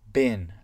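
It is said with an American accent. "avec l'accent américain"

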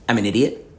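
The voice sounds astonished and indignant. The speaker is astonished at how they are being treated. "they're kind of expressing astonishment at how you're treating them"

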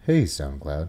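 It is said in a put-on podcast voice.

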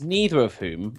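Neither is said with an American pronunciation. "our lovely intro is in American English"

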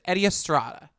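The name is said firmly, like a certainty. The speaker is sure of the name. The speaker calls it right. "in the like affirmative, like it's a certainty"

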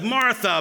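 The name is said in a stern, scolding tone. The speaker is in trouble. The speaker calls it wrong. "instead of Martha, Martha"

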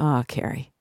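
It sounds harsh and self-scolding.

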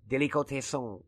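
It is said with a French accent.

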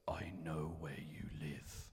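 It is said in a stern, threatening tone.

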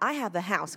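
The words are linked together smoothly.

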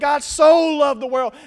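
The word 'so' is strongly emphasized.

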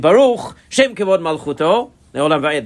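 A break follows Baruch, grouping Shem Kevod Malchuto. The speaker calls it right. "The Shem Kevod Malchuto is supposed to go together"

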